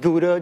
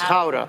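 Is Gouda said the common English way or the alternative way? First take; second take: common English; alternative. First: Gouda is said the common English way. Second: Gouda is said a different, non-common way. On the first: This is how most people say the name. The speaker calls it wrong. "Most people pronounce it Gouda" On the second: This is the proper way to say the name. The speaker calls it right. "It's Gouda"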